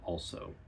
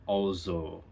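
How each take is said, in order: First: The middle consonant is a hissing s sound. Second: The middle consonant is a buzzing z sound. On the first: "instead of" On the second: "instead of saying s, you'd say z"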